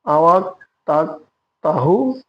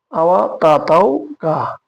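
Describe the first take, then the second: First: আওয়া তাক তাহু with a clear k at the end of তাক; full k pronounced. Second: আওয়া তা তাও কা with the k of তাক swallowed, said slowly; dropped final k. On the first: Teacher giving the full careful pronunciation with the k. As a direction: sound the k fully in তাক. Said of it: "সম্পূর্ণ উচ্চারণ হবে তাক". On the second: Teacher showing how the final k is dropped in speech. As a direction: hold back the k sound in তাও, as Malaysians do. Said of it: "শেষের কেটা উচ্চারণ হয় না". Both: Shown as a demonstration.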